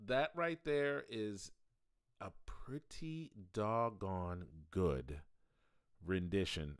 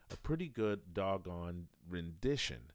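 First: Slow drawl. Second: Said in the usual way. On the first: Shown as a demonstration.

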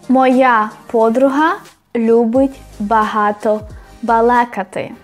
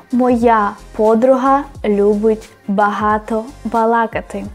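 No difference in how they are said.

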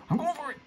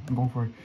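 First: Sudden squeaky high voice; very high, excited little cry; high-pitched squeal. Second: Said in the usual way. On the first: Real, not acted. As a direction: squeal it out as you take the plunge. Repeats resolve in sudden high voice.

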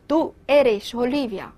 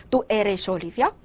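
First: "Olivia" left without the questioning rise; no question intonation. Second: "Olivia" lifted at the end as a question; rising question tune. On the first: Teacher showing the confusing version, statement tune. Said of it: "如果你要不用声调". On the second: Teacher avoiding ambiguity for the listener, rising question tune. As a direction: ask it, sending "Olivia" upward. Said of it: "所以要用声调". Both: Shown as a demonstration.

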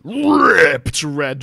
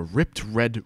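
First: RIPPED rolled long, high and loud; overblown, stretched RIPPED; stress on RIPPED. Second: Said in the usual way. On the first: A narrator's reading. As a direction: blast out a drawn-out RIPPED. Repeats it with huge emphasis.

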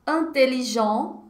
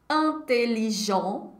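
The two takes are said the same way.

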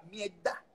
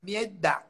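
First: "Mierda" with the R dropped and the d held: "mie-dda"; Cuban accent mierda. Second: "mierda" with no R and a held double d; Cuban accent mierda. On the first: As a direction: say "Mierda" Cuban-style, soft and swallowed. ("Mierda" sin R, con la d sostenida) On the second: ("mierda" con D sostenida, sin R) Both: Shown as a demonstration. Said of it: "dos veces la D".

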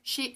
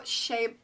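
First: "she" said as SHEE, trying out the word; "she" tried as a reading of shea; pronounced "shee". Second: "shea" said as SHAY; "shea" with an AY vowel; pronounced "shay". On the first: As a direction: say "she" with a long EE. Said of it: "shea, shea butter". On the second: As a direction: say "shea" to rhyme with day. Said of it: "she, shea, shea butter". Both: Shown as a demonstration.

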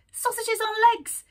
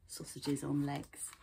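First: "Sausages on legs" high and loud in a mocking rat voice; scornful rat voice. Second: "Sausages on legs" repeated low and soft, savoured; amused aside. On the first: Rat scoffs at lizards. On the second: Shown as a demonstration. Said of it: "That's funny".

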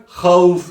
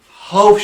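First: "havf" with rasping throaty kh; growled kha. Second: "Havf" with a plain Turkish h; soft h error. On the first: Quran teacher modelling dotted ha, raspy kh. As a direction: rasp the first sound of "havf". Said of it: "Hırlatarak havf şeklinde okuyacağız". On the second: Quran teacher showing what to avoid, soft h. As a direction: breathe the h of "Havf", no rasp. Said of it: "şeklinde okuyamayız". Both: Shown as a demonstration.

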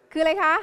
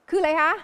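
The two takes are said the same way.

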